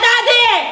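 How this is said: It sounds angry and harsh. "daddy na galit"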